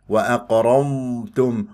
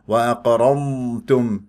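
The two takes are said the same way.

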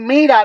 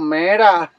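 First: The first vowel is an 'ee' sound. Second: The first vowel is an 'eh' sound. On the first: "en vez de decir mira" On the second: "nos decimos mera"

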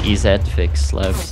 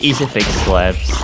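First: EZ is said the Canadian way, as letters. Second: EZ is said plainly, as the word easy.

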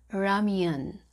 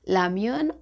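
First: The word begins with an R sound. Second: The word begins with an L sound. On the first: "the real can be pronounced as L and R" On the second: "the real can be pronounced as L and R"

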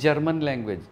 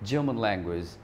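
First: The r sound in German is strong. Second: The r sound in German is weak. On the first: The speaker calls it wrong. "ऐसे नहीं" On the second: The speaker calls it right. "रे का sound नहीं है इसमें ज़्यादा"

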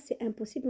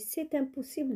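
First: The t is not sounded before impossible. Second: The t is sounded and linked to impossible. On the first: The speaker calls it wrong. "on ne dit pas c'est impossible" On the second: The speaker calls it right. "on dit c'est impossible de retourner là-bas"

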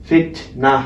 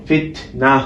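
Both takes have the same delivery.

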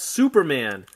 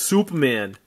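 First: It is said in a plain, neutral accent. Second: It is said in a Massachusetts accent.

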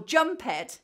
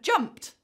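First: The ending is an extra syllable. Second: The ending is just a consonant. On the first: The speaker calls it wrong. "or jump ed" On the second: The speaker calls it right. "instead of jumped"

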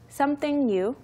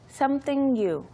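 First: The two words are linked together. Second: The same.

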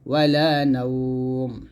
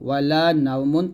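First: The phrase ends on a bare final consonant. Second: The phrase ends with a nasal 'un' ending. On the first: The reader stops at this word. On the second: The reading continues past this word.

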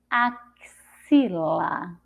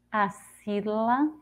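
First: The x is pronounced as a ks sound. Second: The x is pronounced as an s sound. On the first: "Com som de Ceci" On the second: "Com som de Si"

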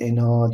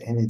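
First: The final vowel is drawn out long. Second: The final vowel is kept short. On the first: The speaker calls it wrong. "ena diye okunmaz" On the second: The speaker calls it right. "ene diye okunur"

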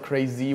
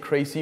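First: The middle consonant is a buzzing Z sound. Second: The middle consonant is a hissing S sound. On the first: "not crazy with a Z" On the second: "I say crazy with an S"

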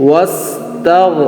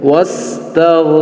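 Both takes have the same delivery.

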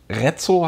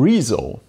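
First: The first vowel is short, with a sharp ts. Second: The first vowel is long, with a soft s. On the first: The speaker calls it wrong. "dass es nicht Rezzo heißt, wie Rezzo-Schlauch" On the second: The speaker calls it right. "sondern Rezo"

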